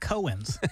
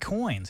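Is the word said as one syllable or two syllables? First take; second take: two syllables; one syllable. First: The word is said as two syllables. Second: The word is said as one syllable. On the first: The speaker calls it wrong. "He says Cohen's" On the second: The speaker calls it right. "he also can't say coins"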